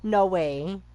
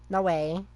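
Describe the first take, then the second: No difference in how they are said.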